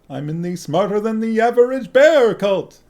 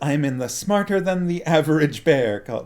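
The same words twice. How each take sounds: First: It is said in a put-on Yogi Bear voice. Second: It is said in the speaker's normal voice.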